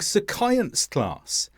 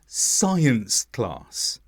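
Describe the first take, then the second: First: The C in science sounds like K. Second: The C in science is silent. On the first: The speaker calls it wrong. "I said it happened during science class" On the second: The speaker calls it right. "it should have been science class"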